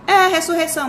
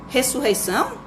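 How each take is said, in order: First: RESSURREIÇÃO confirmed higher, with falling end; emphatic confirmation. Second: RESSURREIÇÃO as a question, rising at the end; questioning echo. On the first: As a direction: confirm "ressurreição" firmly, pitched up then falling. Father confirms the questioned word. ("ressurreição" afirmado, agudo, caindo no final) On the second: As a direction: echo "Ressurreição?" like a puzzled child, tune going up. Child echoes father's unfamiliar word. ("Ressurreição?" em tom de pergunta, subindo no final) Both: Acted.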